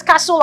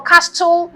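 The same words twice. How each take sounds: First: CASTLE with no T sound; silent T. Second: CASTLE with an audible T, cas-tel; wrongly sounded T. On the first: Spelling teacher voicing a doubt, CASTLE with silent T. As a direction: say CASTLE as cassel. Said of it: "The T is silent". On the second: Spelling teacher showing the doubtful version, CASTLE with sounded T. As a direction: pronounce the T in CASTLE. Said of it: "it's not castle". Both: Shown as a demonstration.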